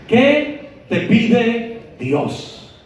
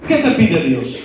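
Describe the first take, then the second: First: Higher, very slow, stretching each word of ¿Qué te pide Dios?; drawn-out, searching ¿Qué te pide Dios?. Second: Said in the usual way. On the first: Shown as a demonstration. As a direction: pull ¿Qué te pide Dios? out slowly, pressing the question.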